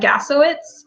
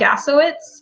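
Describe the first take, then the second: First: The surname is said with an American pronunciation. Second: The surname is said with an American pronunciation.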